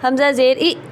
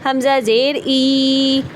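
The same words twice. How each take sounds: First: The final vowel is clipped with a jerk. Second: The final vowel is drawn out long. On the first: "ये झटका" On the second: "ये भी मैंने लंबा कर दिया"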